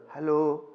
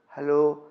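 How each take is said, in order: No difference in how they are said.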